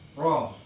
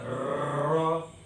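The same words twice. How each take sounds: First: The r is trilled with two or three vibrations. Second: The r is trilled with many vibrations. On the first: The speaker calls it right. "bergetarnya ro itu bisa tiga atau dua getaran" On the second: The speaker calls it wrong. "jadi tidak tidak ro, jangan banyak-banyak kalau bergetar"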